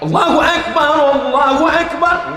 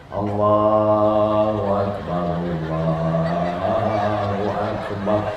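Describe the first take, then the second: First: It is called out loudly and forcefully. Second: It is said softly and gently.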